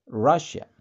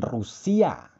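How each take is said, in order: First: Russia said RAH-sha, English style; the right English Russia. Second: Rusia said roo-SEE-ah, Indonesian style; the wrong, local Rusia. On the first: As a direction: Russia with short a and sh. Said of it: "Tapi Russia". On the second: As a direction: Rusia with long u and s sound. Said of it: "Bukan Rusia". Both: Shown as a demonstration.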